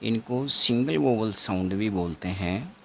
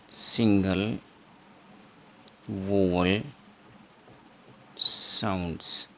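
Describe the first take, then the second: First: Said in the usual way. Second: "single vowel sounds" said word by word with long pauses; teacher pausing after each word of "single vowel sounds"; slow spelled out term. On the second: Shown as a demonstration. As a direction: drill the term slowly, one word at a time.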